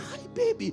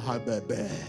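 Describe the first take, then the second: First: It is said in a high falsetto voice. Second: It is said in a normal chest voice. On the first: "the falsetto pronunciation" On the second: "you can do it like my brother"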